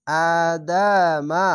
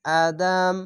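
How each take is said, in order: First: আদামা sung slowly with the final a held open; wrong take, vowel ending. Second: আদাম ending on a closed m, no vowel after it; correct stop. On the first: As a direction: chant আদামা without stopping on the last letter. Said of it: "আদামা না বলে শেষ অক্ষরে সাকিন দিবেন". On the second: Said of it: "শেষ অক্ষরে সাকিন দিবেন". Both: Shown as a demonstration.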